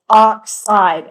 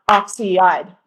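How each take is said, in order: First: The word is said with two syllables. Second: The word is said with more than two syllables. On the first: The speaker calls it right. "have two syllables" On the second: The speaker calls it wrong. "not oxide"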